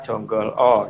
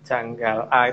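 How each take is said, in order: First: The vowels are pronounced as rounded 'o' sounds. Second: The vowels are pronounced as open 'a' sounds. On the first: "kadang-kadang juga dibaca Jonggol O"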